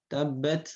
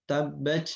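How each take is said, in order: No difference in how they are said.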